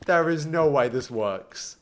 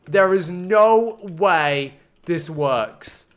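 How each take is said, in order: First: Slow, measured disbelief at normal volume. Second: Very slow, loud, word by word; emphatic disbelief. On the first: Streamer doubting the build works, slow restrained disbelief. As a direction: say it slowly, controlled and incredulous. Disbelief, first subdued take. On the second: Streamer stunned by the build, slow loud disbelief. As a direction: draw out each word forcefully. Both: Real, not acted.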